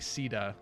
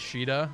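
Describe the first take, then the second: First: The name begins with a plain s sound. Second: The name begins with an sh sound. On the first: This is the official localized form. "it's technically, as far as the localization, is Sita" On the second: This is the speaker's habitual, preferred form. "typically I say Sheeta"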